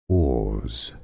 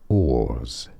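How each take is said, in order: The two takes are said the same way.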